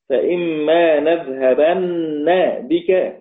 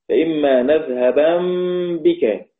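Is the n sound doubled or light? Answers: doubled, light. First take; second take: doubled; light. First: The n is doubled and followed by a vowel. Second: The n is light and without a vowel. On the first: "مشددة مثقلة مفتوحة" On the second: "نون مخففة ساكنة"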